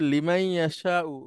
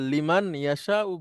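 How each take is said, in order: First: The n sound merges into the following y. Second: The n sound is clearly pronounced before y. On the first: "নুনটা উচ্চারণ হবে না, মিম এসে ইয়াকে ধরবে" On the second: "দুইটাই শুদ্ধ"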